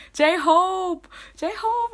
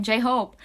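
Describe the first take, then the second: First: Very high, excited name-chant; fan cheer. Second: Said in the usual way. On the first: Acted. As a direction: squeal the idol's name like a fan.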